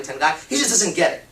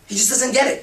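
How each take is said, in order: First: Said in the usual way. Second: Raised, higher fed-up voice; exasperated complaint. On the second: Acted. Woman complaining her guy doesn't get it, exasperated and raised. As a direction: huff it out, completely fed up with him.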